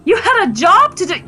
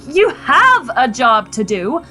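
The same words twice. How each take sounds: First: High, accusing pitch; heated reproach. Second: Slow, with HAVE leaned on hard; stress on HAVE. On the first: Wife scolding husband about his job, heated. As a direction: throw the duty in his face. Wife corrects herself mid-quarrel. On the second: Wife correcting herself to husband, HAVE stressed and drawn out. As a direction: correct yourself, stretching the word HAVE. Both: Acted.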